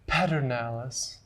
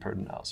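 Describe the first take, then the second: First: The name is said the outsider way. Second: The name is said the local way. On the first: The speaker is not from the area. The speaker calls it wrong. "Some of the non-local people say Pedernales" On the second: The speaker is from the area. The speaker calls it right. "when I say Pedernales River, I mean Pedernales River"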